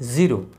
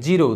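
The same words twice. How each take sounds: First: The word begins with a z sound. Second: The word begins with a j sound. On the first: The speaker calls it right. "কিন্তু শব্দটার উচ্চারণ হবে জিরো" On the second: The speaker calls it wrong. "বর্গীয় জ দিয়ে লেখার কারণে লোকে জিরো উচ্চারণ করে"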